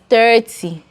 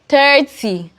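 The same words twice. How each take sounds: First: The first vowel is an 'er' sound. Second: The same.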